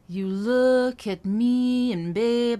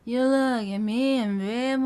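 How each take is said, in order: First: The words are linked smoothly but stay clear. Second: The words are slurred together in a lazy way. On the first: The speaker calls it right. "I'm intentionally linking certain words up" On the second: The speaker calls it wrong. "I'm not going"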